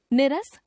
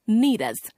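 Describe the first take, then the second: First: निरस with short "ni"; mispronounced first vowel. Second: Said in the usual way. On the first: Shown as a demonstration. Teacher showing a common error, निरस with short first vowel. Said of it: "अशुद्ध". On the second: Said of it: "शुद्ध".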